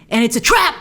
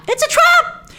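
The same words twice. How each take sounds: First: Said in the usual way. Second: Much higher, hammed-up alien alarm cry; mock alarm cry. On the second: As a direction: shriek the warning like a cartoon admiral. Repeats the famous line.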